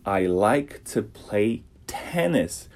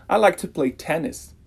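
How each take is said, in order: First: "tennis" slow, with a puff of air on the "t"; aspirated t. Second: Said in the usual way. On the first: Shown as a demonstration. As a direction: breathe out the "t" of "tennis", slowly. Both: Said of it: "tem um arzinho".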